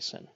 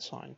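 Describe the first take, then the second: First: It rhymes with 'pin', a short vowel. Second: It rhymes with 'line', a long vowel. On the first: The speaker calls it wrong. "Please don't say sin" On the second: The speaker calls it right. "We pronounce sine sine"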